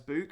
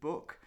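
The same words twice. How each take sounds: First: It is said with a Northern English vowel. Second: It is said with a Southern English vowel. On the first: "we pronounce book as book" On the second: "as the Southern uh, English would say"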